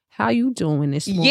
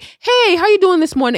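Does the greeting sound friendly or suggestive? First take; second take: suggestive; friendly. First: It sounds suggestive and leering, making one uncomfortable. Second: It sounds like a plain, friendly greeting.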